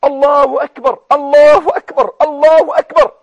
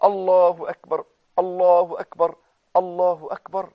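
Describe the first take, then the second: First: Loud, higher, ringing Allahu akbar; joyful takbir. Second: Lower, gentler Allahu akbar; softer takbir. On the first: Retold or imitated. Preacher showing how the Prophet rejoiced, ringing takbir. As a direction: shout it out with joy. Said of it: "وكأن النبي فرح". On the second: Shown as a demonstration. Preacher gently giving the good news to the viewer. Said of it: "شوف البشرى يا أخي".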